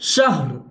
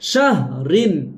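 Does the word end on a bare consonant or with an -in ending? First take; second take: bare consonant; -in ending. First: The word ends abruptly on the r consonant. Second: The word ends with a short -in ending. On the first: The reciter stops at this word. "কিন্তু থামলে কি হবে" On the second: The reciter continues without stopping. "র দুই জের রিন"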